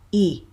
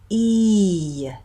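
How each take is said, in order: First: The vowel stays steady without a glide. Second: The vowel ends with a rising y glide. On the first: The speaker calls it wrong. "it's not a pure vowel. So it's not E" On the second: The speaker calls it right. "we have a, what we call a Y off glide"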